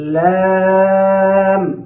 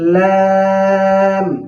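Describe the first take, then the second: Both takes have the same delivery.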